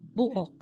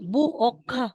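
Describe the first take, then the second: First: The final consonant is plain, without a puff of air. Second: The final consonant is released with a puff of air. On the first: The speaker calls it right. "It will be simplified into regular sound na magiging buok" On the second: The speaker calls it wrong. "Hindi natin sasabihin na pa, na may, may hangin"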